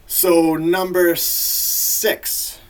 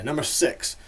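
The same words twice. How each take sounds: First: Very slow, loud, high countdown call; big announcement. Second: Said in the usual way. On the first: Real, not acted. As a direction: draw it out like a hyped announcer. Announces next list entry, then repeats normally.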